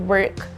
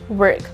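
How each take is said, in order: The two takes are said the same way.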